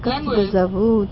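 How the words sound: The question sounds gentle, warm and humble. The speaker respects the person being asked. The speaker calls it right. "почему бы тебе смиренное настроение не сказать?"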